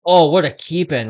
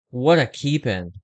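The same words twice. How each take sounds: First: Excited. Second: Said in the usual way. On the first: Real, not acted. Great play on the ice.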